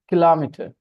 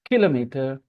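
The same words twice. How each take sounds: First: The stress is on the second syllable. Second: The stress is on the first syllable. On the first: "The stress is now on the second syllable" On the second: "Stress on the first syllable"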